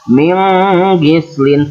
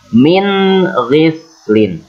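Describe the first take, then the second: First: The n sound is nasalized and blurred. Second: The n sound is pronounced clearly. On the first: The speaker calls it wrong. "Jangan min ghislin, tidak boleh mendengung" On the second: The speaker calls it right. "harus dibaca idhar atau jelas"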